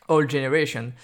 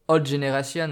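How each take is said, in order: First: "generation" ending in an English "-shun"; amused go at an English accent, louder; attempted English accent. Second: English words in a thick French accent. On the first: Shown as a demonstration. Podcaster retrying old generation after self-mockery, exaggerated English accent. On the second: Real, not acted. Podcaster joking about his super English accent, French-accented English. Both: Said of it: "avec mon super accent anglais".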